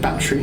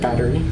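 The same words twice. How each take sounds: First: It is said in a quick British accent. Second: It is said in a slower American accent. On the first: "the way the Brits say it too ... It's quicker" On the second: "instead of"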